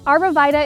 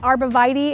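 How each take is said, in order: First: It uses a regional pronunciation of the word. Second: It uses a more standard pronunciation of the word. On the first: This is how people in the speaker's area say it. "the way we, we pronounce the name in my area" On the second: This is probably the proper way to say it. "another way I've heard it, which is probably proper"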